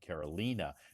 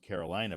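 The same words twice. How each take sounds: First: It is pronounced differently from the state name. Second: It is pronounced like the American state name. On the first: This is how the person says her own name. "she pronounces her name Carolina" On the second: This is how the state name is said. "it's pronounced Carolina"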